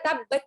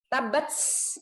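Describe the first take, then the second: First: The final t has a ch-like sound. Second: The final t has an s-like hiss. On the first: "seperti C ... terlalu C" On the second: "nggak boleh S murni ... Nah itu salah"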